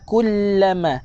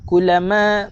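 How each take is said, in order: First: The l sound is held and doubled. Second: The l sound is short and single. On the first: Both letters of the doubled consonant are kept. The speaker calls it right. "Kena baca kullama kullama" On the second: A letter is dropped from the word. The speaker calls it wrong. "Jangan baca seperti ini"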